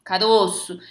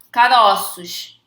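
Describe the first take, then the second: First: Caroço with closed stressed o, "carôço". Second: Caroços drawn out slowly with open "caróços". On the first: Teacher demonstrating the singular caroço, closed o. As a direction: keep the middle vowel of Caroço closed, as ô. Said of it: "O Ozinho tá fechado". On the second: Teacher demonstrating the plural, open o in Caroços. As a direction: open the middle vowel of Caroços wide, as ó, louder. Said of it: "o timbre fica aberto". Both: Shown as a demonstration.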